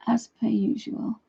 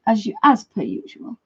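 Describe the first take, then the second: First: Slow conspiratorial whisper; whispered aside. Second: Said in the usual way. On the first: Acted. Whispering the dog joke aside to viewers.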